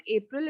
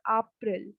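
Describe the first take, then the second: First: April starting with 'ay'; English April. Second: April starting with an open 'ah'; German April. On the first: Teacher shows learners the wrong April, English 'ay' at the start. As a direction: say April as 'Ay-pril'. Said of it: "not April". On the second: Teacher corrects to German April, first vowel 'ah'. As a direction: say April as 'Ah-pril'. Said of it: "it's April". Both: Shown as a demonstration.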